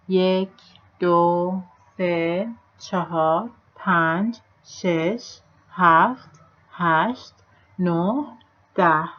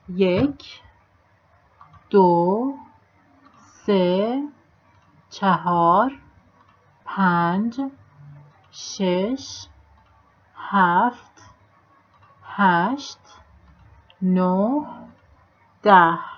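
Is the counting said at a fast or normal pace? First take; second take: fast; normal. First: The numbers are counted very fast. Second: The numbers are counted at a normal pace.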